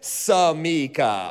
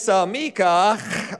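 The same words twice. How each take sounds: First: It is said plainly, with nothing added. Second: It ends with an added Jewish-sounding throat sound.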